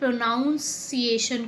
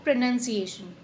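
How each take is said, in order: First: The second syllable sounds like 'nounce'. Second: The second syllable sounds like 'nun'. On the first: The speaker calls it wrong. "This is a wrong प्रोनाउंसिएशन" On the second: The speaker calls it right. "तो आपको क्या बोलना है इसको?"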